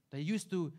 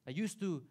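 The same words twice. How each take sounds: The two takes are said the same way.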